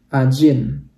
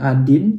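First: The middle consonant is a J sound. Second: The middle consonant is a plain D sound. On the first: The speaker calls it right. "tapi Ajin" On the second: The speaker calls it wrong. "bukan Adin"

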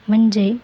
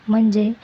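No difference in how they are said.

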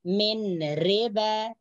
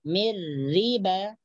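First: The n is pronounced clearly before the r. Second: The n merges fully into the following r. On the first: The speaker calls it wrong. "jangan dibaca min riba" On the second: The speaker calls it right. "nun matinya dimasukkan ke dalam huruf ro"

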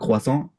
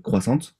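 First: The final T is left silent. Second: The final T is pronounced. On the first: The speaker calls it right. "It's like a croissant" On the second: The speaker calls it wrong. "and not a croissant"

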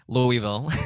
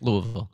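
First: The name is pronounced the way an outsider would. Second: The name is pronounced the way locals say it. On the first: The speaker is not from the city. The speaker calls it wrong. "I've been saying it like a foreigner" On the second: The speaker has picked up how residents say it. The speaker calls it right. "I learned quickly, I think"

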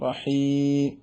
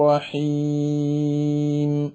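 First: The final m is barely heard at all. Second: The final m has a clear nasal hum. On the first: The speaker calls it wrong. "പിന്നെ ഒന്നും കേൾക്കൂല. റഹീ എന്ന് യാഗ് കേൾക്കും" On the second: The speaker calls it right. "വളരെ സുന്ദരമായി ആ ഒരു ചെറിയൊരു മൂളുന്ന ശബ്ദം തരിമൂക്കിൽ നിന്ന് വന്നതോടൊപ്പം കേട്ടു"

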